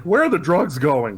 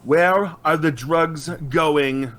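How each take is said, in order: First: Lightly voiced mock Batman, only a bit louder; a half-hearted first try at sounding tough; first intimidating voice. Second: Slow, drawn-out mock Batman growl; new intimidating voice. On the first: Batman questions the thug on the roof, lightly mock-tough. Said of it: "I'm doing my intimidating voice". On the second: Told to try again, Batman drawls the question slowly. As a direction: stretch "Where are the drugs going?" out slowly in a hammed-up growl. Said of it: "that's not very intimidating. Try something else".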